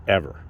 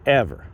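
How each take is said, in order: First: Said in the usual way. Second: Ever said higher and louder, stretched; stress on Ever. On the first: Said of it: "never had a problem with ladies, ever". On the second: Shown as a demonstration. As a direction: punch Ever as a repeated emphasis.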